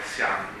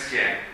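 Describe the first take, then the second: First: The vowel after the i sounds like open 'an'. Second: The vowel after the i sounds like 'en'. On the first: The speaker calls it right. "ma è sian, perché c'è la G alla fine" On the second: The speaker calls it wrong. "Non è sien"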